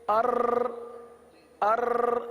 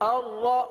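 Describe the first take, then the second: First: The r is rolled with several repeated taps. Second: The r is held without repeated rolling taps. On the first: The speaker calls it wrong. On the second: The speaker calls it right.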